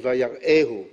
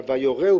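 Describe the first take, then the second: First: "ויראהו" read as vayar'ehu, from seeing; "ויראהו" said with the aleph, meaning showed him; wrong reading. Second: "ויורהו" said vayorehu, stressed and rising; "ויורהו" read as vayorehu, from teaching; correct reading. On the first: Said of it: "לא כתוב". (קריאה שגויה: "ויראהו" מלשון ראייה) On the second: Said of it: "אלא". (קריאה נכונה: "ויורהו" מלשון הוראה) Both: Shown as a demonstration.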